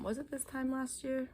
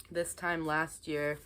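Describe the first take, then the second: First: Higher, puzzled rise on year; suddenly unsure, question it aloud; doubting question. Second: Said in the usual way. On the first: Real, not acted. Vlogger doubting the date to her viewers, puzzled rising question. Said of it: "Sorry, it was actually".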